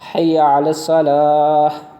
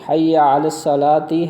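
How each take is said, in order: First: The last word ends on a consonant. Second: The last word ends with a final vowel.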